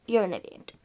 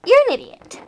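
First: You're an idiot said low and soft under the breath; muttered insult. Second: Sharp scold. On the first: Scolding herself quietly, low soft mutter. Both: Acted. Says the same insult twice.

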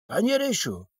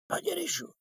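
First: A high, anxious cry for his friend; desperate call. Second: Very high, thin, despairing cry; desperate wail. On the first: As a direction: call out in sudden panic. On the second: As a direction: let the voice crack up into panic. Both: A narrator's reading. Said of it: "zawołał rozpaczliwie".

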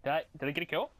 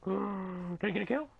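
First: Said in the usual way. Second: High, slow squeaky question; gasp, then ask in drawn-out hope; hammed-up breathless hope; hopeful gasp. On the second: Gasps and asks again, hopeful.

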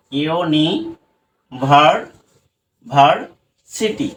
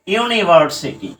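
First: "ইউনিভার-, ভার্সিটি" very slow, part by part with long gaps; broken into parts. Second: Said in the usual way. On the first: Shown as a demonstration. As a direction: stretch and separate each piece of "ইউনিভার-, ভার্সিটি". ("ইউনিভার-, ভার্সিটি" ধীরে, ভেঙে ভেঙে) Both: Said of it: "আমরা আগে ভেঙে নিই".

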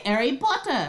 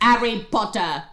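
First: Put-on British accent. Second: Hammed-up British accent on the name; bad British accent. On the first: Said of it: "that's what they say". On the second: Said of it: "my sister's bad British accent".

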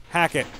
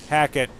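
No difference in how they are said.

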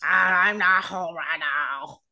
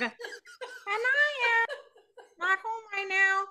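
First: Low, slow croaking frog; drawn-out guttural frog voice; throaty frog voice. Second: Very high cartoon frog greeting; high-pitched frog impression; Kermit the Frog. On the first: Acted. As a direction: leave the greeting as a slow, deep frog. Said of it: "lowering your voice into your throat". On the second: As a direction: play a squeaky puppet frog on voicemail. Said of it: "all in a frog voice".

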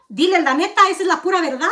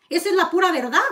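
First: Said through a short laugh. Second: Said in the usual way. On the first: Real, not acted. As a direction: let a laugh slip into the words. Repeats the claim twice.

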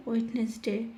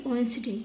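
First: "ওয়েডনেসডে" with D and N both sounded, "oit-nes-de"; spelling-led "oit-nes-de" for "ওয়েডনেসডে"; common mispronunciation. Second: "ওয়েডনেসডে" with silent D, "oens-dei"; falling "oen-si-dei" for "ওয়েডনেসডে"; correct pronunciation. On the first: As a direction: say "ওয়েডনেসডে" as spelt, like "wed-nes-day". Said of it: "এটাকে অনেকেই বলে ওয়েডনেসডে". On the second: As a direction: say "ওয়েডনেসডে" short, like "wens-day". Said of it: "এটার উচ্চারণ আসলে হবে". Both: Shown as a demonstration.

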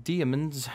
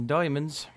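First: "diamonds" said as DEE-uh-munz; playful mispronunciation. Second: "diamonds" said as DOY-munz; playful mispronunciation. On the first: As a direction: stretch "diamonds" with an EE in the first syllable. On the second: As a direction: round the first vowel of "diamonds" to OY. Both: Pretend. Plays with saying diamonds two ways.

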